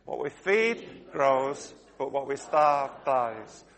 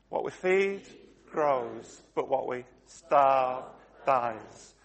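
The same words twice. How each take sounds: First: It is said a bit faster. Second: It is said at a normal pace.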